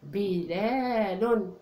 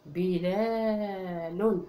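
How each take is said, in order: First: بلال slowly, bi-le-lun; slow model word. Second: بلال dragged out, bi-laa-lun; very slow sounded-out word. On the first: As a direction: sound out بلال for the class. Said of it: "نلون حرف الباء". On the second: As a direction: spell بلال out very slowly. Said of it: "الكلمة الأخيرة بلال". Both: Shown as a demonstration.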